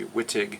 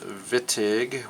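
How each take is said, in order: First: The name begins with a W sound. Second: The name begins with a V sound. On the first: The speaker calls it wrong. "The mispronunciation would be Wittig" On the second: The speaker calls it right. "We actually pronounce it like pronounced Wittig with a V"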